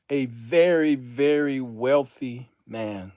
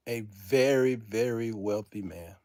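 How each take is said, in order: First: Drawn-out, weighty statement at full voice; stately and deliberate; slow declaration. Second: Hushed, lower repeat; low and heartfelt; soft, sincere. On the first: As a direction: announce it slowly to everyone. First take, declared aloud. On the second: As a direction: let it sink in quietly. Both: Real, not acted.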